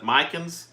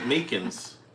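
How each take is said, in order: First: The first vowel sounds like 'eye'. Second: The first vowel sounds like 'ee'. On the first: "Put an I"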